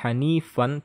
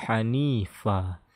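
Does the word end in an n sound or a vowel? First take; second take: n sound; vowel. First: The word ends with an n sound. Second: The word ends on a long open vowel. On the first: The speaker calls it wrong. "Tidak hanifan" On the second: The speaker calls it right. "tapi hanifa"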